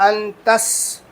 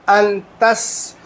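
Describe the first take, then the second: No difference in how they are said.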